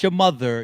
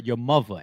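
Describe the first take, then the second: First: The middle of 'mother' has a 'th' sound. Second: The middle of 'mother' has a 'v' sound. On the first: "Not your mother" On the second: "M U V A"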